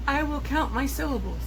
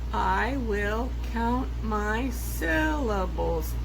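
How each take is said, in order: First: Said in the usual way. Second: Each syllable spelled out slowly; slow syllable count. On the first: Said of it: "let's do it with the sentence". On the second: Shown as a demonstration. Teacher slowly counting syllables to class. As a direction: count every beat slowly.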